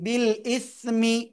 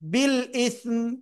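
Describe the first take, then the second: First: The last word ends with a short vowel. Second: The last word ends on a consonant. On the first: The reading continues into the next word. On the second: The reader stops at this word.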